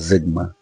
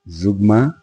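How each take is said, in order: First: The first vowel sounds like 'i'. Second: The first vowel sounds like 'u'. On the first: The speaker prefers saying it this way. "I am more comfortable saying Zigma" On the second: Other people say it this way. "People pronounce it Zugma"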